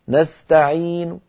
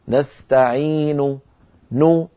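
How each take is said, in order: First: The final u vowel is faint and lowered. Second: The final u vowel is full and complete. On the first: "يعني هكذا يصير" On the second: "هذه الحركة الكاملة"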